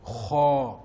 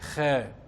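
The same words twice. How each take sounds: First: The consonant sounds heavy and deep. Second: The consonant sounds light and thin. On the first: The speaker calls it right. "Nous allons la prononcer Kha" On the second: The speaker calls it wrong. "et non Kha"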